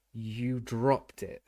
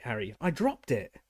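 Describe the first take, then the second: First: Very slow, doubting echo of dropped; disbelieving repeat. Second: Said in the usual way. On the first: A narrator's reading. Official echoes the boy's excuse in slow disbelief. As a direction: repeat his words back, unconvinced. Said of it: "repeated Mister Diggory in disbelief".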